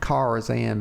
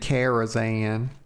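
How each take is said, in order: First: The first syllable sounds like car. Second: The first syllable sounds like care. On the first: The speaker calls it right. "I like the hard R sound, the car" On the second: The speaker calls it wrong. "care sounds like C A R E"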